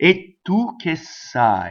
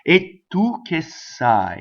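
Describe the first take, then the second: First: The t and s sounds are held long. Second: The t and s sounds are held long.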